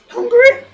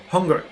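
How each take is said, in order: First: The word is said at a high pitch. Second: The word is said at a lower pitch.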